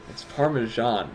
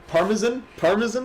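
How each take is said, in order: First: "Parmesan" said slowly in American English, PAR-muh-zhahn. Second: "Parmesan?" mocked with a high questioning rise; mocking Parmesan. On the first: Shown as a demonstration. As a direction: teach "It's Parmesan" slowly, American style. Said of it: "had to say it in an American accent". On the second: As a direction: repeat "Parmesan?" high and puzzled, imitating the mispronunciation. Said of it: "he kept calling it Parmesan".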